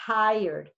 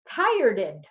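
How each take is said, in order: First: The word ends cleanly without an extra syllable. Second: An extra syllable is added to the end. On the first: The speaker calls it right. "we're going to pronounce it the right way" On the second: The speaker calls it wrong. "If Connie says she feels tireded"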